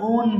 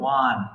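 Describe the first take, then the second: First: The vowel sounds like the word 'own'. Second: The vowel sounds like the word 'one'. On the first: The speaker calls it wrong. "এটা আমরা সবাই ওন বলি" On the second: The speaker calls it right. "Correct pronunciation হবে ওয়ান"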